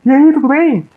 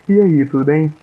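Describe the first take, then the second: First: It sounds overly cheerful and agitated. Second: It sounds calm, firm and warmly positive.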